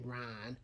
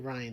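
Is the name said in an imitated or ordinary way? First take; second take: imitated; ordinary. First: The name is said in an imitated way. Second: The name is said in the ordinary way. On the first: "they say Ryan" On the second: "They don't say Ryan"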